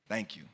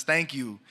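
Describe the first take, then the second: First: Softer, small voice saying "Thank you"; quiet thank you. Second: Said in the usual way. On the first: Retold or imitated. Small boy thanking the poet, softly. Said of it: "and says". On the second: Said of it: "he says".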